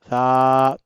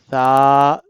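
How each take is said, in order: Both takes have the same delivery.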